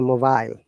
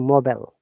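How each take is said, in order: First: It is said with a British accent. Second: It is said with an American accent. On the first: "We say mobile" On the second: "they say mobile"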